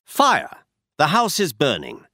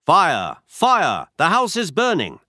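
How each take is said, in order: First: Shouting fire. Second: Loud, rising cry of alarm; shouting fire. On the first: Shown as a demonstration. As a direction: call out the alarm, half-voiced. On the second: Acted. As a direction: yell the warning to the street. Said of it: "and I shouted".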